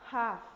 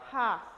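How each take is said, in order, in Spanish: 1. La h inicial es un soplo suave. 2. La h inicial es un soplo suave.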